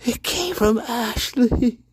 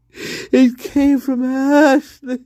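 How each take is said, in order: First: Said in the usual way. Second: Slow, higher mock sob; fake crying. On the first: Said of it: "same line repeated, then crying". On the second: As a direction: cry it out like a hammy drama. Mock-tragic repeat of the accusation.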